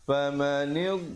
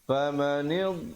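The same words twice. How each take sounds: The two takes are said the same way.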